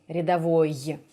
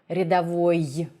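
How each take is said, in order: The two takes are said the same way.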